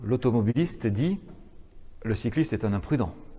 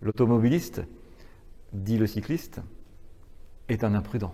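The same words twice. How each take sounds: First: The pause comes after 'dit'. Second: Pauses come after 'automobiliste' and 'cycliste'.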